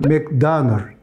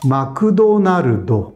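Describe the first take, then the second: First: It is said with original English pronunciation. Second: It is said with Japanese vowels after every consonant. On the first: "원래는" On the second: "일본말로 하면 ... 다 모음이"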